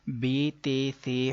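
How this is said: The letter names end in an 'ay' vowel. The speaker calls it wrong. "अरबी लहजा नहीं है"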